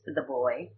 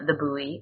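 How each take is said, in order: First: Buoy is said the British way, like boy. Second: Buoy is said the American way.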